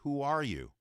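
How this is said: It is asked in an angry, forceful voice.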